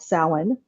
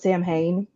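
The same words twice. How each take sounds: First: The word is said in the traditional Irish way. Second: The word is said the way it is spelled. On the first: The speaker calls it right. "it was called Samhain" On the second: The speaker calls it wrong. "I forever called it Samhain, like like a long time till I finally figured out that's not what it's called"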